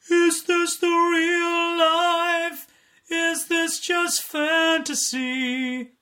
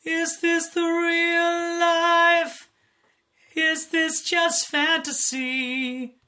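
First: High, slow dopey singing. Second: High slow sung line; sung normally. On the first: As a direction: sing it like a dopey character. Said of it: "So you gotta make it a little bit dopey". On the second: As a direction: sing the line as you normally would. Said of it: "So that could be, for example". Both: Shown as a demonstration.

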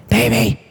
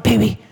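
First: Put-on breathy whisper to a sleeping boyfriend; whispered wake-up call. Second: Said in the usual way. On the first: Shown as a demonstration. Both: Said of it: "Just like that, waking him up".

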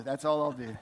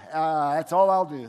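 First: Said in the usual way. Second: Louder, laughing through the words; laughing aside. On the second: Real, not acted. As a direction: chuckle it out after the joke.

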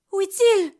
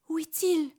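First: Higher, louder frightened cry; panicked repeat. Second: Said in the usual way. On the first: Acted. Rose fearing the devil's return, high frightened cry. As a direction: call out in terror for him.

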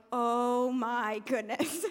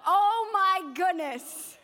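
First: Slow, low, drawn-out mock swoon; hammed-up longing, lower and stretched; tempted awe. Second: Loud, high, drawn-out rapture; hammed-up foodie ecstasy; swooning delight. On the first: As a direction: melt slowly into temptation, a laugh at the end. Acted giving in as dessert arrives. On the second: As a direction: stretch it out, overwhelmed by temptation. Raving over five dollar dessert.

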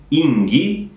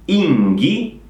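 Both takes have the same delivery.

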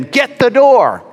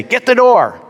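First: High, drawn-out imitation of a woman yelling; woman's voice insisting. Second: High-pitched imitation of a woman calling out; woman's voice calling. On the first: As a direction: mimic her calling out insistently, stretching the words. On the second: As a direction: mimic a woman yelling from inside, pitched well up. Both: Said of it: "a woman's voice inside say".

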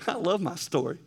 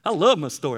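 First: Said through a light laugh; a happy chuckle on the words; laughing fondly. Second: "love" punched louder, with a falling tune; emphatic. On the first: Preacher telling the church he loves his story, laughing lightly. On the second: Preacher insisting to the church that he loves his story, stressing "love". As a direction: lean hard on "love". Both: Real, not acted.

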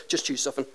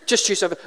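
First: Softer, lower parent's prompt; offhand and low, leaving it to the kids; casual parent instruction. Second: Firmer repeat of a parent's prompt; insistent parent. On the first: Parent to small kids in a sweet shop, casual. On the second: Parent prodding kids in a sweet shop, insistent. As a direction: press the kids to pick, mildly impatient. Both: Acted.

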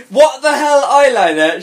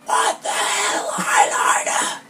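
First: High, loud, pointed exclamation; whisper-yell read voiced. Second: Slow, breath-only whisper yell; stage whisper. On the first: A narrator's reading. Friend bursting into her room, loud mock whisper-yell. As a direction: scold sharply in a raised voice, not whispered. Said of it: "She whispered, yelled". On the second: Shown as a demonstration. Reader demonstrating for co-host, slow whispered yell. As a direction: stretch it out in an exaggerated stage whisper. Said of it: "She, she stage whispered".

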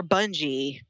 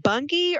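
First: Bungie with a soft G, BUN-jee; g in Bungie soft, like j in jeep. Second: Bungie with a hard G, BUNG-ghee; g in Bungie hard, not like j. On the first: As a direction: say Bungie with a j sound. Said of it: "Is it Bungie or Bungie?". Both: Shown as a demonstration.

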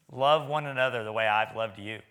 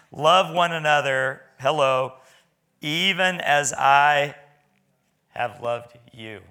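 First: Said in the usual way. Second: Slow and loud, leaning on "Love" and stretching "even as I"; emphatic scripture quote. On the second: Shown as a demonstration. Preacher pressing the verse on the congregation, slow and loud. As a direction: proclaim it slowly, pressing every word home. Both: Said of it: "That was pretty big".

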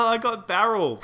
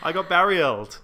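First: Laughing through the words. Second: "barrieled" said with an extra ee sound, laughing; mispronounced. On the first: Real, not acted. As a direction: giggle it out, much higher. Joking about grape juice. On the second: Pretend. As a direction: stretch "barrieled" into bar-ee-eld, laughing. Repeats with mispronunciation.

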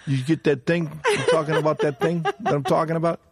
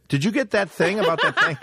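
First: Pitched-up mock Italian-American mobster, laughing through it; Italian wiseguy voice. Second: High laughing mock Italian, botching the phrasing; flubbed wiseguy voice. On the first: Teller demonstrating how Italians are supposed to say it. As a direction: ham up the Goodfellas hint-hint delivery. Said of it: "You know how Italians go". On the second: Friend mocking a guy who botched the Goodfellas line. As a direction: ham up a clumsy mob impression. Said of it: "Instead, he goes".

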